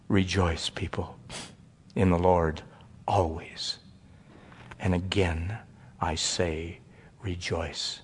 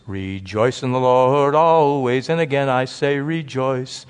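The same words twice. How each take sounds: First: Low, much softer reverent reading of scripture; quiet recitation. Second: Slow sung hymn line. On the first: Acted. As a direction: let the verse fall softly, reverently. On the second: Shown as a demonstration. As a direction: sing it out as a simple hymn. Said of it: "There's a song that goes like this".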